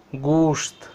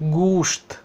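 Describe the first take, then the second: Both takes have the same delivery.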